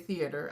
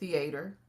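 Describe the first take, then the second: First: It is said with a standard non-Texan pronunciation. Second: It is said with a Texan pronunciation. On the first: This is not how the speaker says it. "I don't say theater" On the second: This is how the speaker normally says it. "I say theater"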